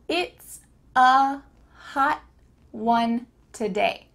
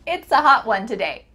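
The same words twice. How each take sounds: First: The sentence is said slowly, word by word. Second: The sentence is said at natural conversational speed.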